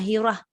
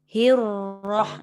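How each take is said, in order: First: The r sound is short and single. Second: The r sound is held and doubled. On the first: The speaker calls it wrong. "Dia jangan hirah" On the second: The speaker calls it right. "Dia sebab dia ada sabdu"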